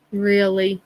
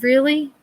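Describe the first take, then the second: First: Dry deadpan. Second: High, rising mock incredulity; brother's joke gets a mock-surprised retort; mock disbelief. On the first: Retold or imitated. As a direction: let the second one land dry. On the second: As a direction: feign being taken aback.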